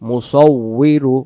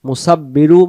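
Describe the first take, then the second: First: The middle consonant is a doubled w sound. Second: The middle consonant is a doubled b sound. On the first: The speaker calls it right. "আমরা উচ্চারণ করব মুসাউবিরু" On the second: The speaker calls it wrong. "মুসাব্বিরু উচ্চারণ আমরা করব না"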